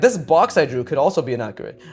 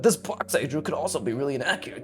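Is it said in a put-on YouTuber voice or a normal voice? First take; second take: YouTuber voice; normal voice. First: It is said in a put-on YouTuber voice. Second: It is said in his normal speaking voice.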